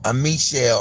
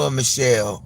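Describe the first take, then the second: First: Michelle said "mee-SHELL"; French-style first syllable. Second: Michelle said "muh-SHELL"; a weak "muh" opening on Michelle; reduced first syllable. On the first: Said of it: "supposed to be pronounced". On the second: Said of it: "not Michelle". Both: Shown as a demonstration.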